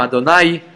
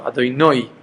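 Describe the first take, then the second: First: "Adonai" with final ai as in eye. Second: "Adonai" as Adoinoy with the closing y heard; audible final yud. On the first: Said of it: "according to Sfaradim". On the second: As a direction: let the y ring at the end of "Adonai", as noy. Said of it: "to hear the yud also". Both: Shown as a demonstration.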